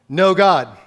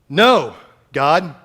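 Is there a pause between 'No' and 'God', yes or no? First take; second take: no; yes. First: The two words run together without a pause. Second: There is a pause between the two words.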